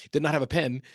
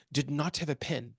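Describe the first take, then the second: First: Said in the usual way. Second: Slow, badly faked French accent; half-hearted French accent, measured out word by word. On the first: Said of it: "I'll just say it in English". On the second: Quoting his UN boss, in a terrible French accent. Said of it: "it's a terrible accent".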